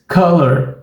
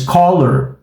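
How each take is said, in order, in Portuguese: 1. A primeira vogal é um som parecido com o inglês. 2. A primeira vogal é o som do O em português. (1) "A gente diz color" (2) "a gente não diz color"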